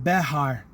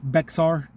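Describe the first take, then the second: First: The name has an H sound in the middle. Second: The name is said without the middle H sound. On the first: "it's actually pronounced with a an H sound. So it you to slow it down, you're actually saying Behar County" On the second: "when you're reading it in American English, it's Bexar, which just sounds so stupid"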